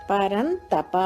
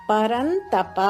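The two takes are said the same way.

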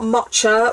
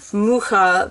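First: The middle consonant is a ch sound. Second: The middle consonant is a throaty h sound. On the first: The speaker calls it wrong. "It's not matcha" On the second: The speaker calls it right. "It is indeed mucha"

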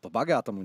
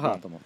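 First: The г is said the standard way. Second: The г is said the regional, different way. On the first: The speaker calls it wrong. "Нет, буква «Г» звучит немного по-другому" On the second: The speaker calls it right. "Согласен"

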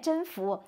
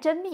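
First: The second syllable is not pronounced mi. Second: The second syllable is pronounced mi. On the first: The speaker calls it right. "人家念甄宓" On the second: The speaker calls it wrong. "人家不念真蜜"

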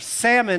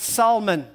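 First: It is said like the fish word. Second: It is not said like the fish word.

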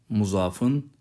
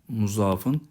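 Both takes have the same delivery.

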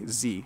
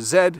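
First: The letter is pronounced ending in a long ee. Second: The letter is pronounced with a final d sound. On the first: This is the American way to say the letter. "We do not say Z in Canadian English" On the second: This is the Canadian way to say the letter. "we have the letter Z"

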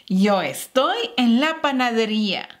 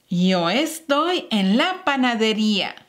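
The two takes are said the same way.

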